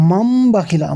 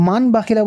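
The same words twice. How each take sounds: First: মাম with a long hummed m before বাখিলা; correct nasal ghunnah. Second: মান with a short plain n, straight into বাখিলা; mistaken n sound. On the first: Teacher correcting a common mistake, long nasal m. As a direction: hold the final m of মাম, then say বাখিলা. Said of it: "কী হবে?". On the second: Teacher mimicking what many wrongly read, unheld n. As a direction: say মান বাখিলা with n and no nasal hold. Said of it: "এটা এক সম্পূর্ণ ভুল হবে". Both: Shown as a demonstration.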